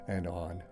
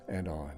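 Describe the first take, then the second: No difference in how they are said.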